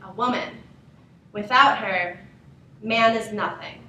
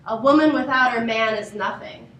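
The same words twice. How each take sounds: First: It is said with pauses inside the sentence. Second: It is said straight through without pauses.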